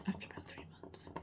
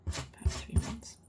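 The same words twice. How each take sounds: First: Said in the usual way. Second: About three months slow and louder, each word weighed; stress on About three months. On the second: Shown as a demonstration. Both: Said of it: "repeats phrase with emphasis".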